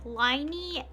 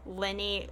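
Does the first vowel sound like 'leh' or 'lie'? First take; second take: lie; leh. First: The first vowel sounds like 'lie'. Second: The first vowel sounds like 'leh'. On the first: "some people are saying it differently, like lie" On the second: "it's kind of based on the French pronunciation, which where it's like the L Y in their name is like L"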